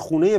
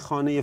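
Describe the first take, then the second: First: It is pronounced in the local colloquial form. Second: It is pronounced in the standard form. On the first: Local people understood it. "میگفتی خونه فلانی کجاست، میبردن" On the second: Local people did not respond to it. "گفتی خانه فلانی کجاست، میگفتن نمیشناسیم"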